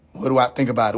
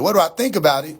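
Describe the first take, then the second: First: Much lower, falling question; low echoed question. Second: Firmer, livelier repeat of the question; insistent echoed question. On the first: Streamer echoing what everybody asks him, low and incredulous. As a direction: throw the question back in a low voice. Throws the asked question back. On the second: Streamer repeating what everybody asks him, insistent and incredulous. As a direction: ask it with more push. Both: Real, not acted.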